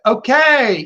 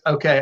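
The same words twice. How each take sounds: First: It is said warmly, with lively praise. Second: It is said flatly, without warmth. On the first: The dog did everything right. The speaker calls it right. "I'm going to praise you with my voice" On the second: It simply releases the dog. The speaker calls it wrong. "it's not just okay"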